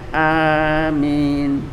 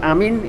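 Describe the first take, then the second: First: Both vowels are drawn out long. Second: The vowels are said short. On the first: It is the prayer's closing word. The speaker calls it right. "A-nya panjang, minnya panjang" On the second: It means to believe. The speaker calls it wrong. "artinya sudah beda"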